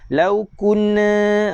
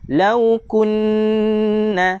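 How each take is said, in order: First: The nasal n sound is cut short. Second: The nasal n sound is held for two beats. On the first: The speaker calls it wrong. "tak nak macam tu" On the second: The speaker calls it right. "dua harakat"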